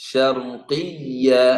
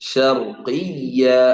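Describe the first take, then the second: No difference in how they are said.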